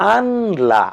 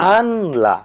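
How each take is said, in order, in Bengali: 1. l-এর আগে n আলাদাভাবে উচ্চারিত হয়। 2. l-এর আগে n আলাদাভাবে উচ্চারিত হয়।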